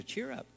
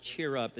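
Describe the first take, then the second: First: Gentle uplift. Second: Said in the usual way. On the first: Acted. The Lord telling a troubled listener to cheer up, high and soft.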